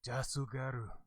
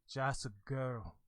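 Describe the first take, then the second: First: It is said in a strong Japanese-style accent. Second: It is said in a plain English accent. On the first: "I just went full blown Japanese" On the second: "would be like just a girl"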